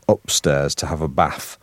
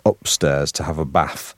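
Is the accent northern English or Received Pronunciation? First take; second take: northern English; northern English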